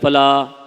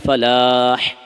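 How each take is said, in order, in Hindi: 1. h एक सादा, हल्का h ध्वनि है। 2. h एक गहरा, गले से निकलने वाला h ध्वनि है। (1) "यूं नहीं हय्या अल फलाह, फलाह ऐसे नहीं करना है" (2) "हा निकालना है"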